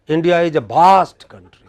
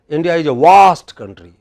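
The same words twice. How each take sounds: First: Vast begins with a b-like sound. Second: Vast begins with a w-like sound. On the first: "we pronounce it as bha" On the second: "are they saying waste country?"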